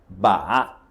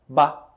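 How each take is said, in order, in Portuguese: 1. O tom desce e depois sobe. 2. Não tem tom, dito de forma simples, como em português. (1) "O terceiro tom é o tom que desce e depois sobe" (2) "E a sílaba sem tom, ba, é a forma como você pronunciaria em português"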